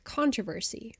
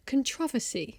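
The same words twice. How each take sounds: First: Controversy stressed on CON, American style; American pronunciation. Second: Controversy stressed on TROV; British pronunciation. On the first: Comparing American and British speech, American controversy. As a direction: say CON-tro-ver-sy, quietly and slowly. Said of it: "An American might say". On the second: Contrasting British with American speech, British controversy. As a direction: say con-TROV-er-sy, British style. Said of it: "British people say controversy". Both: Shown as a demonstration.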